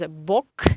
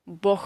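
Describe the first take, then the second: First: The final consonant is a k sound. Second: The final consonant is an h sound. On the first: The speaker calls it wrong. "according to Russian pronunciation rule, it should be pronounced as Bok" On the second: The speaker calls it right. "we pronounce this G as H"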